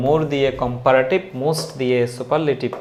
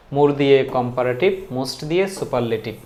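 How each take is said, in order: Both takes have the same delivery.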